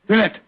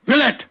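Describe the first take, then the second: First: Said in the usual way. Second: Grillet! called louder and higher, urgently; calling out. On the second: Acted. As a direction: call Grillet! sharply to wake him. Calling to the wounded man.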